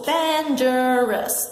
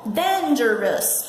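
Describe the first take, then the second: First: Dangerous drawn out even more slowly, syllable by syllable; slow model word. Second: Dangerous said slowly and clearly; slow model word. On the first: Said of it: "três sílabas". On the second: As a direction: stretch out dangerous for the class. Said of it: "Então, ó". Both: Shown as a demonstration.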